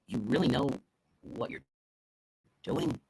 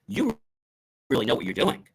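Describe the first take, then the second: First: Soft, halting, doubtful delivery; no trust. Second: Confidence. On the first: Speaker showing little trust in the helper, hesitant doubt. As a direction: break it up with doubting pauses. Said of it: "little to no trust or respect in you". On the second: Speaker contrasting two meanings, confident praise. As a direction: say it with full trust in them. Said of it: "confidence, or". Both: Shown as a demonstration.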